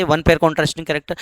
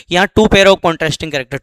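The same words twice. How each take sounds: First: Said in the usual way. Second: टू hit with a falling accent, fast delivery; stress on two. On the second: Shown as a demonstration. Teacher contrasting two pairs with one, stressing टू. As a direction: lean on टू to set it against वन. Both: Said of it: "वहाँ एक जोड़ी विपर्यासी लक्षणों की बात करते थे".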